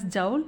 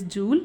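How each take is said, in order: First: "joule" said like "jowl"; alternative pronunciation. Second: "joule" said like "jool"; preferred pronunciation. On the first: Teacher shows students how some pronounce it, "joule" as "jowl". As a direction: say "joule" with an OW vowel, rhyming with owl. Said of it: "Some pronounce as joule". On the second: Teacher gives students the name of the energy unit, "joule" as "jool". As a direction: say "joule" with a long OO vowel, rhyming with cool. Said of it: "It is joule". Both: Shown as a demonstration.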